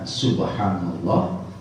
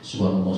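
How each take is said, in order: First: It is said slowly and carefully. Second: It is said quickly and hurriedly.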